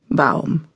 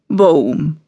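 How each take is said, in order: First: The vowel sounds like au. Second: The vowel sounds like an o.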